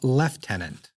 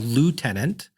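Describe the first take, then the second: First: It is said as lef-tenant, with an F sound. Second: It is said as loo-tenant, with no F sound. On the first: "they call lieutenant" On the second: "what we Americans call lieutenant"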